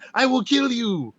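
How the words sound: It is said in a light, joking tone. It was meant as a joke. "if you hear the tone of me saying"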